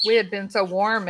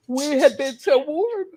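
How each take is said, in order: First: Said in the usual way. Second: Words stretched out through a yawn; talking through a big real yawn. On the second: Real, not acted. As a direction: say it mid-yawn, drawn out and higher. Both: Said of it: "I'm yawning".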